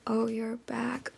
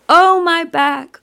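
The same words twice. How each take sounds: First: Gentle echo. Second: Loud, high grieving wail; crying out in grief. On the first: Creatures echo her grief for the child, softly. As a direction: hand her grief back quietly. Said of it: "echoed back to her". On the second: Grieving goddess cries out for her husband, wailing. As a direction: let the grief burst out on Oh. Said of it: "she's crying out". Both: Retold or imitated.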